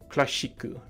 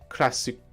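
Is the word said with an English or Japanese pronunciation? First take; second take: Japanese; English. First: It is said with a Japanese pronunciation. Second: It is said with an English pronunciation. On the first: The speaker calls it wrong. "you use the word in Japanese as well... That's my bad attempt at it" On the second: The speaker calls it right. "it's important to use the English pronunciation"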